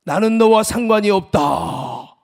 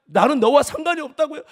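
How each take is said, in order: First: God's voice. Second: Indignant disbelief. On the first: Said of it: "하나님의 음성이 뭐라고 하냐면". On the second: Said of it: "하나님께 하소연하며". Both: Retold or imitated.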